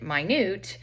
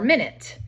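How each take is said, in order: First: It is said as the word for tiny. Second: It is said as the word for time. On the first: Something is very small. "which is very small" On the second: It names a unit of time. "which you guys are probably more familiar with"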